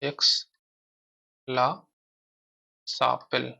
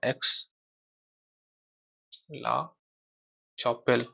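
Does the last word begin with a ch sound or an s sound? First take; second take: s sound; ch sound. First: The last word begins with an s sound. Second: The last word begins with a ch sound.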